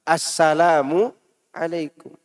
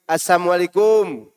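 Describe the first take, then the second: First: The greeting is articulated carefully, every sound clear. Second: The greeting is articulated carelessly, sounds run together. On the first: The speaker calls it right. "Pakai tajwidnya" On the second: The speaker calls it wrong. "jangan mengatakan Assalamualaikum. Salah"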